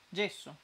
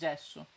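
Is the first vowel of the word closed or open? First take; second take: closed; open. First: The first vowel is a closed e. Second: The first vowel is an open e. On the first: "gesso io lo dico con la chiusa" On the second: "Te dici gesso"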